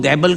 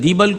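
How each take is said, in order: First: The first vowel sounds like 'ai'. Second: The first vowel sounds like 'ee'. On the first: The speaker calls it wrong. "आपने दीबल को दैबल कहा था" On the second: The speaker calls it right. "दीबल का साहिल है"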